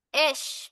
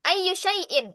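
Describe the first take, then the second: First: The phrase is shortened to one syllable, esh. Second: The phrase is said in full, several syllables long. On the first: It is colloquial spoken Arabic. "di amiyah disingkat jadi esh" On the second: It is formal standard Arabic. "itu fusha"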